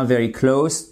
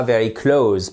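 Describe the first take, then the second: First: "close" ending in a hissed S, klohs; "very close" as in nearby, S not Z; close meaning near. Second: "close" ending in a buzzing Z, klohz; "very close" like the verb to shut, klohz; mispronounced close. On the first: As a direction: say "very close" with an unvoiced final S. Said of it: "C'est bien very close, tout près". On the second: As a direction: say "very close" wrongly with a final Z. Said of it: "et pas very close". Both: Shown as a demonstration.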